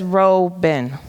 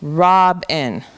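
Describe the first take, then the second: First: "Robin" misread as ROE-bin, slowly, in two parts; long O, split syllables. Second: "robin" split as ROB-in, with a short O; short vowel, closed syllable. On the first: Teacher tries the first division, "Robin" sounded out as ROE-bin. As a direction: say "Robin" with a long open O, breaking before the b. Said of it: "That's a closed syllable". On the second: Teacher tries the other division, "robin" sounded out as ROB-in. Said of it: "this says a short sound now". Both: Shown as a demonstration.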